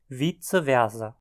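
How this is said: German-style, with German Latin sounds. "em áreas falantes de alemão"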